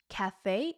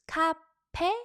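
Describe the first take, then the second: First: The word is said with an f sound. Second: The word is said with a p sound.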